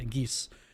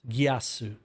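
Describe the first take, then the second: First: It is said as one syllable, like geese. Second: It is said as three syllables, gee-ah-su. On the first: "I've heard it pronounced uh, like a geese" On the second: "So Giasu is how it's pronounced"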